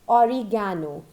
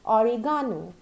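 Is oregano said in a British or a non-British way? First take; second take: non-British; British. First: The word is said in a non-British way. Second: The word is said in a British way. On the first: The speaker calls it wrong. "It is never said as oregano. No, that's not right" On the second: The speaker calls it right. "In the British English, it is said as oregano"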